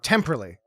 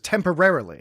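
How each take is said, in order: First: It is said with a shortened British pronunciation. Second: It is said with the full American pronunciation. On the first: It imitates how someone from England says it. "Picard said a word funny" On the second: It is the speaker's own usual way of saying it. "as opposed to"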